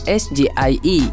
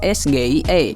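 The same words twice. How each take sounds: First: The letters are said with English letter names. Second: The letters are said with Indonesian letter names. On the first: "bukan pelafalan bahasa Inggris" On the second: "menggunakan pelafalan bahasa Indonesia"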